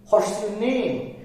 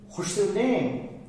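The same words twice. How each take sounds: First: The first words run together as 'what's'. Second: The same.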